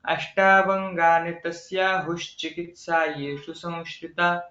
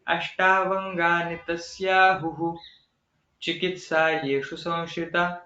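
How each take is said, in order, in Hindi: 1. ये शब्द एक साथ बोले जाते हैं, संधि से जुड़े हुए। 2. ये शब्द अलग-अलग बोले जाते हैं, संधि खोली हुई। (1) "ये तो पूरा वाक्य पढ़ लिया।" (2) "हमने संधि को तोड़ के फिर उसका उच्चारण किया।"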